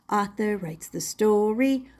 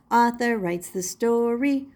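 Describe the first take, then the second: No difference in how they are said.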